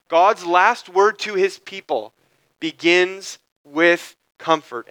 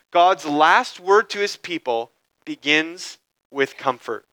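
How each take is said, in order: First: Slowed right down, each word weighted; slow emphatic restatement. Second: Said in the usual way. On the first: Shown as a demonstration. Preacher repeating the main idea to the congregation, slow and emphatic. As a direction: drive the main idea home slowly. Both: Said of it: "This is the main idea".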